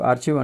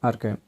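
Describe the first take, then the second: First: The middle consonant is a ch sound. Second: The middle consonant is a k sound. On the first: The speaker calls it wrong. "మనకు ఆర్చివ్ అంటారు" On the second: The speaker calls it right. "అసలు pronunciation ఇది ఆర్కైవ్"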